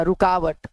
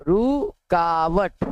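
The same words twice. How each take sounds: First: Said in the usual way. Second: रुकावट stretched out very slowly, syllable by syllable; drawn out slowly. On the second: Shown as a demonstration. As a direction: dictate रुकावट very slowly so students can write it. (रुकावट को बहुत धीरे खींचकर बोलें) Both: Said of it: "व्यवधान मतलब रुकावट".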